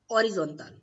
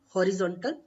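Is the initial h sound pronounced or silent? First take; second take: silent; pronounced. First: The initial h sound is silent. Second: The initial h sound is pronounced. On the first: The speaker calls it right. "we will read horizontal" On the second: The speaker calls it wrong. "we will not read horizontal"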